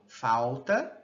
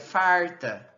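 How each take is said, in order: First: The l becomes a w-like glide. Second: The l becomes a retroflex r. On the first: "a lateral pode se realizar como uma semivogal" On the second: "e no R caipira"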